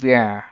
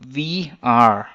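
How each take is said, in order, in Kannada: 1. ಎರಡು ಪದಗಳು ಒಂದೇ ಉಚ್ಚಾಂಶವಾಗಿ ಸೇರುತ್ತವೆ. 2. ಎರಡೂ ಪದಗಳನ್ನು ಪೂರ್ಣವಾಗಿ ಹೇಳಲಾಗುತ್ತದೆ.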